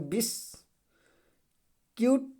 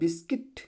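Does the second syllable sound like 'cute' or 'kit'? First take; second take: cute; kit. First: The second syllable is said like 'cute'. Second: The second syllable is said like 'kit'. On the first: The speaker calls it wrong. "ऐसा कुछ लोग पढ़ेंगे बिस क्यूट, ऐसे पढ़ते हैं नहीं" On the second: The speaker calls it right. "यू क्या है, साइलेंट हो जाएगा"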